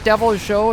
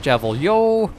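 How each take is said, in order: First: The second part begins with a J sound. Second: The second part begins with a Y sound. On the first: "is it Devil Joe?" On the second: "Is it Devil Yo?"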